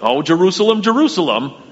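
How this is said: It is said in a scolding tone.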